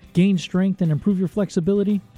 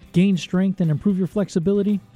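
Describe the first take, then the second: No difference in how they are said.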